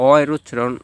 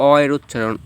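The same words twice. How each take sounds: The two takes are said the same way.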